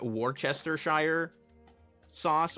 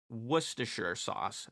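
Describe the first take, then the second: First: The word is read out fully, as spelled. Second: The word is said in a shorter, reduced form. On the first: The speaker calls it wrong. "it looks like it's pronounced like Worcestershire sauce or something like that. That's not how you pronounce it though" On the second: The speaker calls it right. "That's how it's pronounced"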